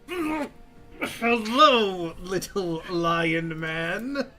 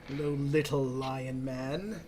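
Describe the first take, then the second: First: It is said loudly with a full, forceful voice. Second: It is said in a plain, lighter voice.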